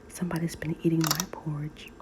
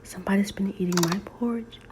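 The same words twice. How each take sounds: First: The voice is quiet and gentle. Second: The voice is small, high and squeaky. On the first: "in her quiet voice" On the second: "in his small, squeaky, baby voice"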